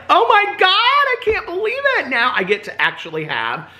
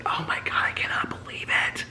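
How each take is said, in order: First: Thrilled outburst. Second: Whispered, re-enacted disbelief; voiceless, awestruck whisper; excited whisper. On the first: Retold or imitated. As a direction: squeal it in overjoyed disbelief. Retelling thrilled reaction to gravy. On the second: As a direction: gasp it out in a hushed whisper. Retelling excitement, whispered second take.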